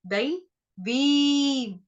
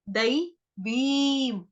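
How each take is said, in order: The two takes are said the same way.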